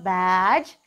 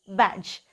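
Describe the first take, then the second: First: The vowel sound is long. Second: The vowel sound is short. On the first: The speaker calls it wrong. "It is not badge" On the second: The speaker calls it right. "it is badge. So it is a short vowel"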